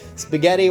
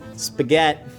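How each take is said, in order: First: The final vowel is pronounced. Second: The final vowel is dropped.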